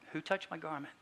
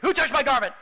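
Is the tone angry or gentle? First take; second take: gentle; angry. First: It is said in a gentle, inviting tone. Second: It is said in an angry, demanding tone.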